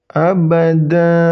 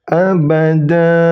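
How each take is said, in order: No difference in how they are said.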